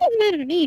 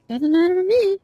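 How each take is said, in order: First: It is said in a light, playful tone. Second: It is said in a cold, smug tone. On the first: The listener truly does not mind. "in like a playful tone" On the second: The listener is annoyed and dismissive. "now you're being just a smug bitch"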